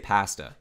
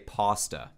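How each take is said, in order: First: It is said with a Canadian pronunciation. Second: It is said with an American pronunciation. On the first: "here in Canada, we say pasta" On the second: "In the United States, most of you guys say pasta"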